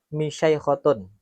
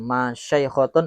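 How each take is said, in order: First: The first vowel is an 'i' sound. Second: The first vowel is an 'a' sound. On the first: "wa kasriha" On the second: "bi fathil mim"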